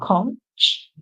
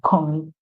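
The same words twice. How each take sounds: First: The word ends with an 'sh' sound. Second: The word ends with a 'k' sound. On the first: "in the British pronunciation, you would hear conch" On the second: "in the American pronunciation, you would hear conch"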